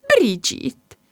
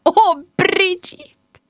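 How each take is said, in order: First: A sob-like cry of the name. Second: High, drawn-out gasp of alarm; dismayed mum. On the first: Mum calling her upset daughter, tearful cry. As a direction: call her name as if near tears. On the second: Mum spotting her upset daughter, crying out in dismay. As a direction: stretch it out, alarmed and higher. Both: Acted.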